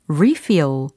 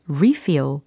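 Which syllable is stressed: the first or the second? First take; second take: first; first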